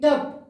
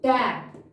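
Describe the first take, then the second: First: The vowel is a short, central 'uh' sound. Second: The vowel is a front 'ae' sound. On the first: The speaker calls it wrong. "अ मात्रा के हिसाब से" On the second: The speaker calls it right. "But ये कैसे क्या पढ़ेंगे हम?"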